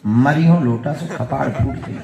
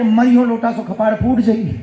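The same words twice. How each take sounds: First: Loud, deliberate incantation; mock guru mantra. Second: High, loud, agitated repetition; ghost's alarmed retelling. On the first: Villager giving the mantra in the prince's ear, mock-solemn incantation. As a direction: intone it like a secret spell, but loudly. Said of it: "कान में इसने कहा गुरु मंत्र". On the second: Retold or imitated. Ghost repeating the threat it has just heard, mock alarm. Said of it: "भूत को लगा कि ये हमें पहचान गया".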